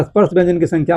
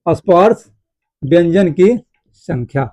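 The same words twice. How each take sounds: First: Said in the usual way. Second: Slow, broken into pieces with long pauses; slow dictation. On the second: Shown as a demonstration. Teacher dictating key points to students, slow and broken up. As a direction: dictate piece by piece for note-taking.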